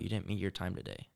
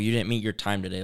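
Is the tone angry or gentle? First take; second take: gentle; angry. First: It is said in a soft, reassuring tone. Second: It is said in a harsh, scolding tone. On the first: The speaker is forgiving and encouraging the listener. "He said, like, no" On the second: The speaker is condemning the listener for failing. "he's not speaking in, like, oh"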